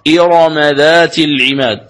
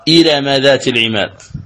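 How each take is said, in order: First: The r sound is heavy and full. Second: The r sound is light and thin. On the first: The speaker calls it right. "تقرأ إرم بالتفخيم الراء" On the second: The speaker calls it wrong. "ولا يصح أن تقرأ"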